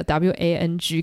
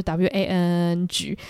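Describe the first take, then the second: First: Said in the usual way. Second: "W A N N G" slowed with the N held long; stretched N. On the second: Shown as a demonstration. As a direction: drag the N in "W A N N G". (把 "W A N N G" 的 N 拉得很长) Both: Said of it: "N拉的很长".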